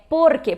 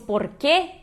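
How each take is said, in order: First: The stress is on the first syllable. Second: The stress is on the second syllable. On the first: The speaker calls it right. "porque é uma palavra só, não tá acentuada, ela é uma llana" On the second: The speaker calls it wrong. "se fosse porque, teria o acento no e"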